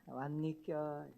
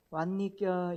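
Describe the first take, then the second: First: 왔니껴 drawn out slowly and softer; slow Andong greeting. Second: Gyeongsang greeting with a rising 왔니껴; Andong dialect greeting. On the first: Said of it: "이렇게 인사해요". (안동 사투리로 천천히 "왔니껴") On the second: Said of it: "안동 사람 어떻게 인사합니까?". (안동 사투리로 "왔니껴?") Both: Shown as a demonstration.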